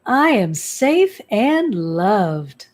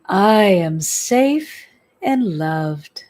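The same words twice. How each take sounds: First: Slow "I am safe and loved" leading strongly on "I", falling after; new intonation. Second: Slow, drawn-out "I am safe and loved" with weight on "safe"; slow affirmation. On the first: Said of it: "Change the intonation, change the speed". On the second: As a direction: say "safe" longest, each word stretched. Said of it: "and repeat". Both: Shown as a demonstration.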